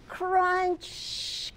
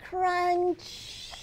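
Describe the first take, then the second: No difference in how they are said.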